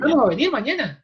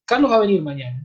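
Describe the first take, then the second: First: "Carlos va a venir mañana" pitched much higher, as a question, falling at the end; Spanish question. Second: "Carlos va a venir mañana" as a plain statement with a level tune; Spanish statement. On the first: Lecturer showing the Spanish question intonation. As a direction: lift "Carlos va a venir mañana" high, as if asking. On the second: Lecturer showing the Spanish statement intonation. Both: Shown as a demonstration. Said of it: "what's really gonna make the difference is".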